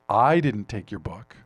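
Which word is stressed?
I. The word "I" is stressed. Someone else took the book. "probably means somebody else did, but I didn't take it"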